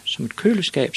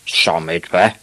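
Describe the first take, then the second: First: Put-on high-pitched, matter-of-fact kid voice; high child reply, falling at the end; little boy Ivan. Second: Disbelieving dad question; incredulous father. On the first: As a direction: answer up high as a small boy. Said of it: "sagde Ivan". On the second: Acted. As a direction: echo it as a baffled father. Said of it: "sagde hans far".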